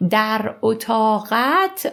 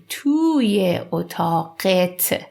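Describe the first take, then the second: First: Said in the usual way. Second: "توی اتاقت" slowly, ending in -et; spoken form. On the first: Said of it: "I've already told you". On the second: Shown as a demonstration. Teacher reminding learners of spoken Persian, "توی اتاقت" slow with -et ending. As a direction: draw out colloquial "توی اتاقت", last vowel e. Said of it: "in spoken form".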